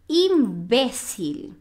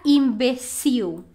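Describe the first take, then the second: First: "imbécil" slowly, im-BE-sil; "imbécil" with middle stress and clear final l; Spanish stress. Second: "imbecil" stressed on the last syllable, im-be-SIW; "imbecil" as im-be-SEE-oo; Portuguese stress. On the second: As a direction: land on the end of "imbecil". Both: Shown as a demonstration. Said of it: "a sílaba tônica é diferente".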